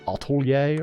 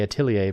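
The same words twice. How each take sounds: First: The word is said with French-style sounds. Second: The word is said with English-style sounds. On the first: The speaker calls it right. "apparently it's supposed to be pronounced like atelier or something like that" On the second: The speaker calls it wrong. "I say atelier"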